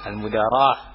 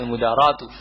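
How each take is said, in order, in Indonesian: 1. Kata ini berakhir dengan bunyi h yang tidak dibunyikan. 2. Kata ini berakhir dengan suku kata tu yang dibunyikan. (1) "Kalau enggak dibaca ya al-mudarah atau dimatikan" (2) "kalau dibaca taknya"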